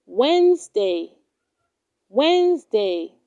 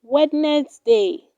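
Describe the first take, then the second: First: Wednesday said as "WENZ-day"; correct pronunciation. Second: Wednesday said as "Wed-nes-day"; wrong pronunciation. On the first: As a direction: silent first d in Wednesday, two syllables. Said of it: "It is pronounced". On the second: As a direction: sound the first d in Wednesday, three syllables. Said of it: "do not say". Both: Shown as a demonstration.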